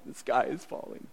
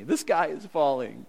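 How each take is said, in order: First: Whispered, fretful repeat; whispered mock panic. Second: Lightly voiced fretful Naomi; a hint of a panicky Naomi; mock panic. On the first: Preacher mimics Naomi's despair in a mock whisper. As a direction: breathe it out like a frightened whisper. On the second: Preacher mimics Naomi's despair, lightly voiced mock panic. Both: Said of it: "Naomi going like".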